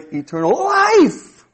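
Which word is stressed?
life. The stress falls on the word life. The focus is on the quality of the life. "And now you're emphasizing the quality of that life"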